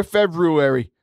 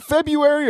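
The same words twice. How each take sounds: First: "February" said Feb-roo-ary, first r sounded; spelled-out pronunciation. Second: "February" said Feb-yoo-ary, without the first r; common pronunciation. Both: Shown as a demonstration. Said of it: "is it February or February?".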